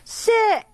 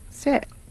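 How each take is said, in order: First: The word is shouted loudly. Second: The word is said calmly.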